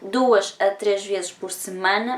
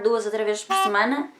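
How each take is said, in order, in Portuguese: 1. A frase é falada em ritmo mais lento. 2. A frase é falada em ritmo rápido.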